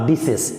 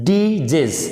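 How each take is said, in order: First: The middle consonant is a hissing s sound. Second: The middle consonant is a buzzing z sound. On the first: The speaker calls it wrong. "Not ডিসেস" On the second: The speaker calls it right. "এস কিন্তু জ উচ্চারণ হচ্ছে"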